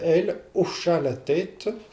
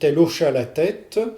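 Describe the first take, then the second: First: The final E of elle is sounded. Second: The final E of elle is dropped. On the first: The speaker calls it right. "sans apocope du, du E" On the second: The speaker calls it wrong. "vous apocopez le, le E"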